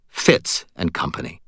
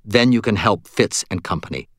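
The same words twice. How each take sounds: First: Flat, unimpressed echo of the name. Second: Said in the usual way. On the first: A narrator's reading. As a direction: repeat it back flatly, a little lower. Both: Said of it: "she said in a flat tone".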